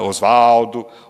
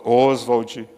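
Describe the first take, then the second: First: The name ends with an added vowel sound. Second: The name ends on a consonant sound. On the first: This is how a close friend called him. "O Mário de Andrade chamava de Osvaldo" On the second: This is how people commonly say the name. "então falam Oswald"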